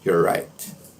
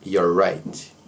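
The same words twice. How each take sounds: First: The first two words merge into one contraction. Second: The same.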